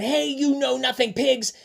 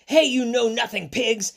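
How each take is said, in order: First: High storybook yell. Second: High, punchy storybook yell. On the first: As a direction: call it out high at the pigs. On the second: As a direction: yell it out at the pigs. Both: Acted. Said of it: "and yelled".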